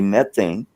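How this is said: It is said the American way. "We say methane"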